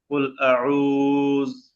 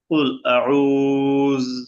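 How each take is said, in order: First: The final word ends on a bare consonant. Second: The same.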